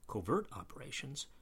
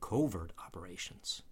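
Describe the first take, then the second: First: The stress in covert is on the second syllable. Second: The stress in covert is on the first syllable.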